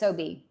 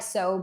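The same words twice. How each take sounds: First: The word does not rhyme with robe. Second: The word rhymes with robe. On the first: The speaker calls it right. "it's Sobe" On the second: The speaker calls it wrong. "it's not like sobe, like robe"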